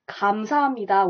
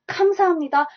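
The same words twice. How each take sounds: First: It starts with a softer g-like sound. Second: It starts with a strong, hard k sound. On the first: The speaker calls it right. "say 감사합니다 with a G" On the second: The speaker calls it wrong. "instead of saying 감사합니다"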